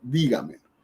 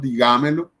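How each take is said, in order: First: The stress is on the first syllable. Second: The stress falls on a later syllable. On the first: The speaker calls it right. "sino dígamelo" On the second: The speaker calls it wrong. "No decimos digámelo"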